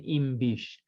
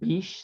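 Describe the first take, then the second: First: The M before bish is clearly audible. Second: The M before bish is barely audible. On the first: "then you really hear that M" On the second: "there's an M there"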